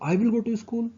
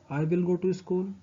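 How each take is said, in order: First: It is said in a surprised tone. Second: It is said as a plain, finished statement.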